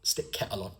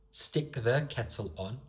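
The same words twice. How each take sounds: First: Regional British accent, "the" dropped; understated regional dialect delivery. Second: Said in the usual way. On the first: Shown as a demonstration. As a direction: put a local accent on "Stick kettle on". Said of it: "I also put an accent there".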